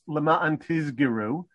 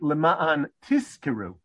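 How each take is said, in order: First: Both middle consonants are voiced, z and g. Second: Both middle consonants are unvoiced, s and k. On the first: "if you voice the kaf and you make a ka into a g" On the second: "which are both unvoiced"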